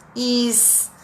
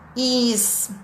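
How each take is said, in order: First: The word ends with a hissing s sound. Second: The word ends with a hissing s sound.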